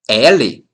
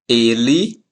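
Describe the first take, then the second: First: The first vowel is open, as in pet. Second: The first vowel is closed, not as in pet. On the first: It names the letter L. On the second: It means he.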